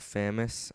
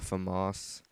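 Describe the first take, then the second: First: The name sounds like the English word famous. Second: The name sounds unlike the English word famous. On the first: This is the speaker's habitual way of saying it. "I've always called it the Famous" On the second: This is the way others say it should be said. "people have been quick to correct me on my pronunciation"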